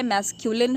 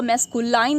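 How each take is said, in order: First: मैस्कुलिन with a short "lin" ending; correct pronunciation मैस्कुलिन. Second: मैस्कुलाइन with the ending said like "line"; mispronounced मैस्कुलाइन. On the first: Teacher corrects learners' misreading, मैस्कुलिन ending in short "lin". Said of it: "इसको मैस्कुलाइन नहीं पढ़ते". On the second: Teacher shows learners a common misreading, मैस्कुलाइन ending in "line". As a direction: say मैस्कुलाइन with a long "eye" in the last syllable. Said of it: "बहुत लोग गलत पढ़ते हैं". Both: Shown as a demonstration.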